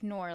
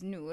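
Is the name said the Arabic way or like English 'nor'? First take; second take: English; Arabic. First: It sounds like the English word 'nor'. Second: It is said with the Arabic pronunciation. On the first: The speaker calls it wrong. "nor, like the conjunction" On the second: The speaker calls it right. "that's how it's supposed to be pronounced"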